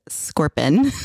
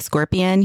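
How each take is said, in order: First: "scorpion" squeezed to two syllables, SCOR-pin; husband's pronunciation of scorpion. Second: Said in the usual way. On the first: Retold or imitated. Wife quotes husband's odd way, "scorpion" as SCOR-pin. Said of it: "he says scorpion". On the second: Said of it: "instead of scorpion".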